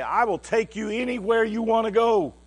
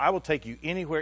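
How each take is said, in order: First: High, loud sweeping declaration; grand promise. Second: Said in the usual way. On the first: Retold or imitated. Promising his brother a holiday treat, loud and grand.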